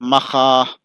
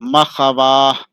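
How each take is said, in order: First: No w sound follows the kh. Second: A w sound follows the kh. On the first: The speaker calls it right. "पढ़ाएगा" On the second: The speaker calls it wrong. "लिखा है"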